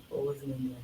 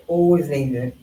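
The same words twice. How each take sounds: First: Much softer, trailing repeat; quiet echo. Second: Said in the usual way. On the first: Real, not acted. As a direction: let it fall away to near nothing. Repeats phrase, echo fading.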